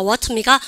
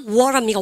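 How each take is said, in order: First: "워터" with a true, released t; British pronunciation. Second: "워터" with the t voiced into a flap, like "워러"; American pronunciation. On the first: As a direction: keep the t hard in "워터". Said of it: "다르게 발음하는 것 자체를 싫어해요". ("워터"의 ㅌ을 그대로 살린 영국식 발음) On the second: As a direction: soften the t of "워터" to an r-like tap. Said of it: "영국 애들은 쌤이 근본 뭐를 싫어합니까". ("워터"를 "워러"처럼 굴리는 미국식 발음) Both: Shown as a demonstration.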